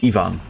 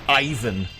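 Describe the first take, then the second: First: The name begins with an 'ee' sound. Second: The name begins with an 'eye' sound. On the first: This is how Spanish speakers say it. The speaker calls it right. "In Spanish, we pronounce it like Evangelion. ... That is how you pronounce it" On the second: This is how Americans say it. The speaker calls it wrong. "they call him Ivan. You fucking stupid Americans"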